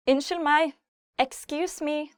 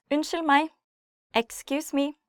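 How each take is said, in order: Both takes have the same delivery.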